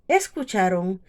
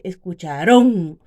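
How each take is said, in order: First: The stress is on the second-to-last syllable. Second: The stress falls off the second-to-last syllable. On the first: The speaker calls it right. "la tiene en la penúltima sílaba" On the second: The speaker calls it wrong. "porque aquí estaría la fuerza"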